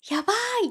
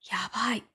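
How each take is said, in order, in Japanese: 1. 驚いて喜んでいる感じで言う。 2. 平坦で不満そうな感じで言う。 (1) "笑顔とか、あとはびっくりした感じの" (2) "真顔とか、あとはちょっと顔を歪めながら"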